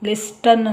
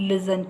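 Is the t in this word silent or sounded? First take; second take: sounded; silent. First: The t sound is pronounced in the middle. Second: The t sound is left out entirely. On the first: The speaker calls it wrong. "ಲಿಸ್ಟನ್ ಅಂತ ಹೇಳ್ತಾ ಇಲ್ಲ ನಾವಿಲ್ಲಿ" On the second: The speaker calls it right. "ಇಲ್ಲಿ ಟಿ ಇದೆ ಆದರೆ silent ಅದು"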